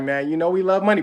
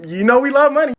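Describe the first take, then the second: First: Said in the usual way. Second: High, loud comic reminder; loud insistence. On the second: Retold or imitated. British refused their money, loudly insistent. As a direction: hammer "You know we love money", pitched up.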